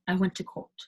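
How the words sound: It is said in a British accent.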